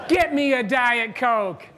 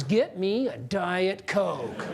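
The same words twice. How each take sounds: First: "Get me a Diet Coke" louder and slow, each word landed; loud slow command. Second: Slow, laughing "Get me a Diet Coke"; slow laughing request. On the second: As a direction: savor each word of "Get me a Diet Coke" through a chuckle. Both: Shown as a demonstration. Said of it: "turn and say to your boss these words".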